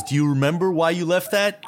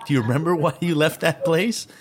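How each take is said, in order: First: Said in the usual way. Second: Laughing through the question. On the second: Real, not acted. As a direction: giggle as you ask it.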